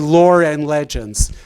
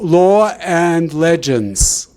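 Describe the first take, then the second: First: An r sound links law to and. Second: No r sound links law to and. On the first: "they didn't say" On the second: "They would say"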